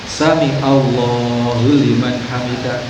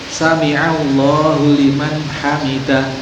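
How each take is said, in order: First: The first word runs straight into Allahu, shortened. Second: The first word keeps its final syllable before Allahu. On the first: The speaker calls it wrong. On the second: The speaker calls it right. "Sami'a, sami Allah, sami' mendengar dari kata sama"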